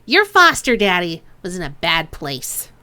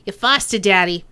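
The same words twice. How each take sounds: First: Put-on Chang's accent retaken. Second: Put-on slipping into Duncan's accent. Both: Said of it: "Why am I picking up Duncan's accent".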